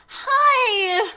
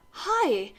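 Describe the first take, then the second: First: High, loud, drawn-out hello; excited greeting. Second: Subdued, falling greeting; sad reply. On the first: Heroine greeting Draco, excited. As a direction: greet with hammed-up eagerness. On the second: Draco replying to heroine, sad. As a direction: answer glumly, without volume. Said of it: "his face was all sad". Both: Acted.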